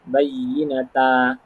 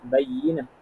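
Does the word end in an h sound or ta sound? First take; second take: ta sound; h sound. First: The word ends with a t and vowel. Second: The word ends with a soft h sound. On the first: The speaker calls it wrong. "Tapi kita kita tak bunyi bayyinata" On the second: The speaker calls it right. "Sebab ta tu kita baca dengan bunyi ha"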